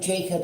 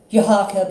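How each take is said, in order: First: The name has the English pronunciation. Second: The name has a non-English pronunciation.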